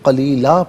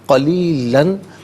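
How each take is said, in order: First: The word ends with a long 'a' sound. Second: The word ends with an 'an' sound. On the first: The reader stops at this word. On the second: The reading continues without stopping.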